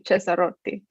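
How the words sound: It is said with an Italian pronunciation. The speaker calls it right. "the C E makes a che sound"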